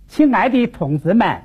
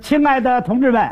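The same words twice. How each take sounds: First: It is said in Wuhan dialect with falling tones. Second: It is said in standard Beijing Mandarin. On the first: "湖北话，跟北京话比起来啊，就是四声有点区别。它往下滑" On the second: "刚才你看我说的 那是北京话"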